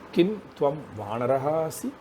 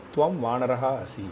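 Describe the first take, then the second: First: Kim stressed, rising at the end; question tune. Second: Said in the usual way. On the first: Shown as a demonstration. Teacher asks the monkey question, voice rising at the end. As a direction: ask it as a real question, voice climbing on asi. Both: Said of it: "Kim frames the question".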